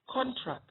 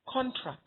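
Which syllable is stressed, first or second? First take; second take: first; first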